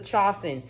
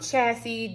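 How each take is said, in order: First: The word ends with an 'en' sound. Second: The word ends with an 'ee' sound. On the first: The speaker calls it right. "correction, this this is a chasen" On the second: The speaker calls it wrong. "I was saying um chassis"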